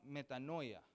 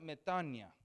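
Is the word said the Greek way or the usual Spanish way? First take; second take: Spanish; Greek. First: It is said the way Spanish speakers usually say it. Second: It is said with the original Greek pronunciation. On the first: "lo decimos" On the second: "en la palabra griega es, se pronuncia"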